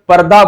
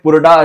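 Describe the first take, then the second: First: The first vowel is an 'a' sound. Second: The first vowel is a 'u' sound. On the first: The speaker calls it right. "पर्दा बोलते हैं उसको" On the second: The speaker calls it wrong. "Pronunciation में पुरडा ऐसा दिख रहा है"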